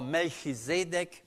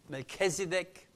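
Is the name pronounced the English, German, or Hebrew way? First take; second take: German; English. First: The name is pronounced the German way. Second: The name is pronounced the English way.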